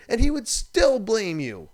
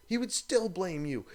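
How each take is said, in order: First: Louder and slower, hammering it home; ranting host stressing the point, loud and slow; emphatic loud. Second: Said in the usual way. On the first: Real, not acted. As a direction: hit the line hard and slow. Ranting about reckless skier.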